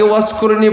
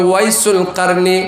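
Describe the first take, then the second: First: The name is run together in a clipped form. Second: The name is said fully with every syllable. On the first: The speaker calls it wrong. "যাকে ওয়াসকুরনি বলে" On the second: The speaker calls it right. "শুদ্ধ ভাষা সহি উচ্চারণ হচ্ছে"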